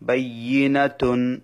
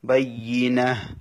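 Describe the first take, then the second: First: The word ends with a full t syllable. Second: The word ends with a final h sound. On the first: Reading continues without stopping here. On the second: Reading stops at this word.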